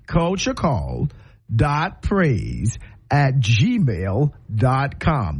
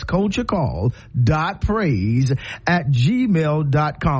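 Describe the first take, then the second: First: It is said slowly. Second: It is said fast.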